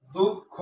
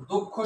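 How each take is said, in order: First: দুঃখ in two beats, with a gap before the last; দুঃখ broken after its closed first syllable; split into syllables. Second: Said in the usual way. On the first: Shown as a demonstration. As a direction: separate the final syllable of দুঃখ. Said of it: "খোটা আলাদা করে উচ্চারণ করলাম". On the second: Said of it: "উচ্চারণ কেমনে করি".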